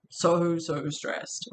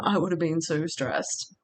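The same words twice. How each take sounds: First: Slow, drawn-out so, so stressed. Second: Said in the usual way. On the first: Real, not acted. Repeating how stressed she would have been, slow and stressed. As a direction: lean hard on each so and stretch the phrase slowly.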